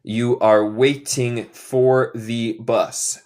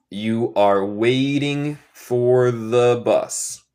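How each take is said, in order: First: Slow model sentence, "waiting" with a clear T; neutral English T. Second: Very slow, "waiting" with a flapped, R-like T. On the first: Teacher modelling neutral English for learners, clear T. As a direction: sound the T in "waiting" fully, word by word. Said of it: "En inglés neutral sería waiting". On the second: Teacher repeating the sentence in their own accent, T as R. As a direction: soften the T in "waiting" to an R, drawn out. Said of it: "En mi acento yo digo T más como R". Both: Shown as a demonstration.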